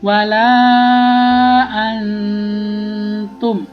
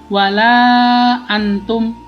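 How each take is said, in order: First: The n is held long with a nasal hum. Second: The n is said plainly without a nasal hum. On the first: The speaker calls it right. "maka harus dengung ya. Wala antum, nah begitu ya" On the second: The speaker calls it wrong. "tidak boleh nanti kalau wala antum, nah itu salah"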